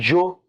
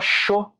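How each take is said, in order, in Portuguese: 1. Começa com som de dj. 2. Começa com som de ch. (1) "Como se fosse um D, um J e um O" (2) "como se fosse um C H O"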